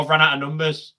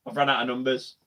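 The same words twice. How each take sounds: First: Said in the usual way. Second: "I've run out of numbers" again, much softer, stress on "run"; quiet self-mutter, leaning on "run"; softer muttered repeat. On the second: Real, not acted. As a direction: mutter it to yourself as an aside.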